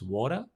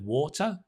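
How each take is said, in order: First: The middle consonant is a soft D-like flap. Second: The middle consonant is a crisp T sound. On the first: This is the American way of saying it. "the T becomes a flip, a flap" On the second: This is the British way of saying it. "instead of water"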